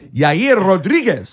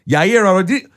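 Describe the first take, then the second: First: The name is said in a Mexican accent. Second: The name is said in a plain accent.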